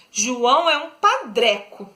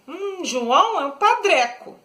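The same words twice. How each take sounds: First: Said in the usual way. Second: A scornful hum, then padreco said higher with sneering disdain; disdainful. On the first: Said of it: "tô desdenhando". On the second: Shown as a demonstration. Teacher mocking João to show a scornful diminutive. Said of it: "tô desdenhando, tô fazendo deboche".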